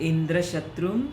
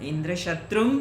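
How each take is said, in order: Both takes have the same delivery.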